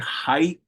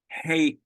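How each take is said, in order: First: The vowel sounds like the word 'high'. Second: The vowel sounds like the word 'hay'. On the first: "You can say hai" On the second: "he pronounced it hey"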